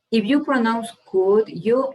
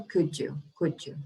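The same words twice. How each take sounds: First: Said in the usual way. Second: Could you run together as "couldja"; blended could you. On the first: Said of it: "it's correct". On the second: Shown as a demonstration. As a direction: join could you into one word "couldja". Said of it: "if you want to sound more like a native speaker".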